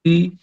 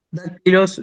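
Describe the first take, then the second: First: "dac-i-los" split up with clear pauses; syllable by syllable. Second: Said in the usual way. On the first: Shown as a demonstration. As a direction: sound out "dac-i-los" one syllable at a time. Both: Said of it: "yo separo en sílabas la palabra".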